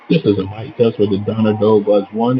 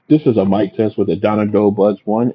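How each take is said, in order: First: The voice sounds over crowd and background noise. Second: The voice sounds with a quiet background. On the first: "in a crowded location" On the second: "in a quiet location"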